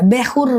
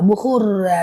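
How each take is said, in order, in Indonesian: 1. Vokal pertama berbunyi 'e'. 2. Vokal pertama berbunyi 'u'.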